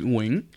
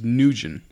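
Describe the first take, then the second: First: The name has its Vietnamese pronunciation. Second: The name is said as two syllables, 'Nugent'. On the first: "how you say it in Vietnamese is Nguyen" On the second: "the way I pronounce my last name is Nugent"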